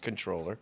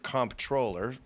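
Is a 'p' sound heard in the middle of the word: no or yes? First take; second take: no; yes. First: It is said with no 'p' sound, con-troller. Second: It is said with a 'mp' sound, comp-troller. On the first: The speaker calls it right. "but it's pronounced controller" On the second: The speaker calls it wrong. "they pronounce it comptroller"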